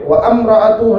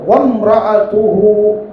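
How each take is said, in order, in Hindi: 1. 'am' से पहले एक अलग ग्लोटल स्टॉप से टूटता है। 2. 'wa' आसानी से 'mra' में चलता है। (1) "व अम्रअतुहु नहीं" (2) "बल्कि वो वम्रअतुहु"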